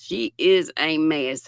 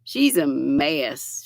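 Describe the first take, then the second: First: IS hit with a falling tune; stress on IS. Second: SHE'S stressed and drawn out, falling; fond remark. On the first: Granny D repeating her tease with IS stressed. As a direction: press down on is, affectionate. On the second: Granny D teasing a friend with SHE'S slow and stressed. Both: Real, not acted.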